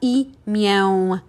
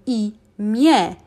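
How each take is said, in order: First: The final vowel is nasal. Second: The final vowel is a plain e. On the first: The speaker calls it wrong. "not imię" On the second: The speaker calls it right. "we just pronounce it as normal E. So imię is how we pronounce it"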